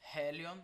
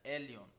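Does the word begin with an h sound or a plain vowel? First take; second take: h sound; plain vowel. First: The word starts with a breathy h sound. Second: The word starts directly on the vowel. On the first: The speaker calls it wrong. "e não helion" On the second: The speaker calls it right. "com uma aspiração branda, elion"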